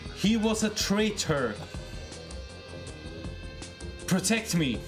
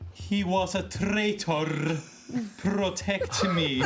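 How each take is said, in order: First: It is said trying to hide any accent. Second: It is said in a strong Lashondan accent. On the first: The character is trying to pass as human. "I try to sound as human as I can. I try to hide my accent" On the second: The character's origin is given away. "Can you do it in your Lashondan accent?"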